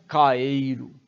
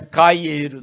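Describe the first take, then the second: First: No extra glide follows the first vowel. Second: An extra 'y' glide follows the first vowel. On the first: The speaker calls it right. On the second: The speaker calls it wrong.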